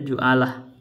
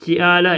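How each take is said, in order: First: The first vowel is u. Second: The first vowel is i.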